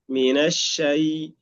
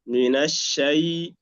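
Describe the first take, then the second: No difference in how they are said.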